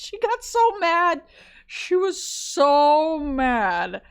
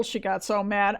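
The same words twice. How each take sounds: First: "so mad" stretched slowly, high and loud; emphatic drawn out. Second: Said in the usual way. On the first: Real, not acted. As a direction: lean hard and slow on "so mad". Retelling the student's anger.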